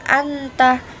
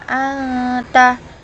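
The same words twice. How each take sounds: First: The n is said plainly without a nasal hum. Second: The n is held with a long nasal hum. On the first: The speaker calls it wrong. "Tidak boleh anta" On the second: The speaker calls it right. "Jadi harus dibaca dengung"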